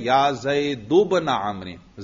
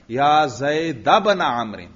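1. زید کا آخر ایک مختصر 'u' حرکت پر ہے۔ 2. زید کا آخر ایک مختصر 'a' حرکت پر ہے۔ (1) "یوں بھی آپ پڑھ سکتے ہیں ... زید کو مبنی علی الضم پڑھیں" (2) "اس پر فتحہ پڑھنا پسندیدہ ہے، اس پر بھی زبر پڑھیں، فتحہ پڑھیں"

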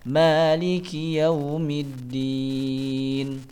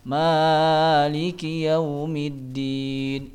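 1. Vokal setelah ma dibaca dua harakat. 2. Vokal setelah ma dibaca terlalu panjang. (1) "Yang benar adalah" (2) "jangan dibaca terlalu panjang"

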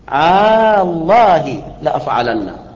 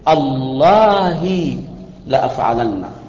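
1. الصوت الأول ممدود وطويل. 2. الصوت الأول مقطوع وقصير. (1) "فمده أن تقول الله لا أفعلن، الله لا أفعلن، هذا مد" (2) "ويجوز أن تقطع الهمزة فتقول"

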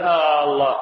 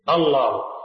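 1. الحركة الأولى ممدودة وطويلة. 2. الحركة الأولى تبقى قصيرة. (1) "لا يجوز له أن يمد الهمزة ... فلا يقول الله" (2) "يقصر الهمزة"

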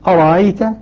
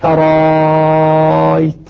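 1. تُسهَّل الهمزة الثانية ولا تُنطق همزةً كاملة. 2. تصبح الهمزة الثانية مدًّا طويلًا. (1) "نافع يسهل الهمزة يبقيها لكنها مسهلة" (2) "إبدالها ألفا ... مع المد المشبع ست حركات"

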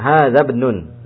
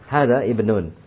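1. Kedua kata itu diucapkan menyambung. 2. Kedua kata itu diucapkan terpisah. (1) "Ada lagi cara baca yang berikutnya" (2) "kalau mau dipisah tidak apa-apa"

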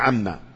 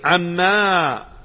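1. تنتهي الكلمة بصوت ميم قصير. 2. تنتهي الكلمة بحرف مد طويل. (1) "القراءة المشهورة وهي عما بهذه الميم" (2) "قراءة ابن كثير عما بالمد"

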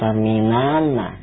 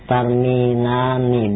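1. Kata itu berakhir dengan vokal 'a'. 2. Kata itu berakhir dengan vokal 'i'. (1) "bukan tarminana" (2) "Begitu juga dengan domir antunna"

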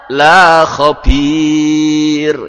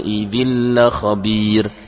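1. Vokal pada 'la' ditarik panjang. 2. Vokal pada 'la' diucapkan pendek. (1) "Kalau dibaca panjang"

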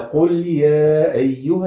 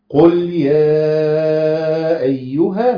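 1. حرف المد يُقصَر. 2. حرف المد يُمَدّ أربع حركات. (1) "يبقى انا قللت" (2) "يبقى همد اربع حركات"

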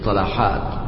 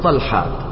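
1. تأتي بعد l فتحة قصيرة. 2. لا تأتي بعد l أي حركة. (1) "فتقول في الجمع طلحات" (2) "ولا تقول طلحات"

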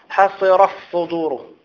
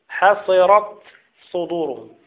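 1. تندمج التاء في الصاد التي بعدها. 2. تُنطق التاء بوضوح قبل الصاد. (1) "ما تقولش" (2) "أريد أن أسمع التاء"

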